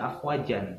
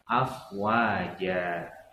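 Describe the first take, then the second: First: The word ends with a short vowel plus n. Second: The word ends with a lengthened vowel, no n. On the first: The speaker calls it wrong. "Maka jangan dibaca afwajan" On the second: The speaker calls it right. "tapi dibaca afwaja, dua harokat"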